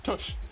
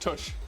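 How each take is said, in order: First: The vowel sounds like the one in push. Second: The same.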